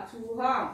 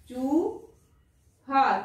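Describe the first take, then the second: First: Said in the usual way. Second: Drawn out slowly with a long ऊ; slow sounding out. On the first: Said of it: "teacher repeats word". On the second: Shown as a demonstration. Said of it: "teacher sounds out word".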